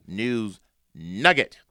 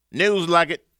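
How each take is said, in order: First: "nugget" said slowly with a clear initial N; corrected pronunciation. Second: "Nugget" slipped into "lugget", with an L; slip of tongue. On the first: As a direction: draw out the corrected "nugget", starting on N. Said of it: "I meant news nugget". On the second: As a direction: say "Nugget" starting with L instead of N, loud and high. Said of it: "Did I say news nugget?". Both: Real, not acted.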